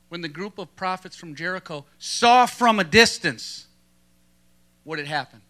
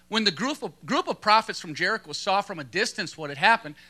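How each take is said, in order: First: It is read with strong, deliberate emphasis. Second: It is read plainly, without extra emphasis.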